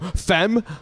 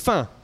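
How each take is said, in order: First: It is said with a British accent. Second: It is said with a French accent.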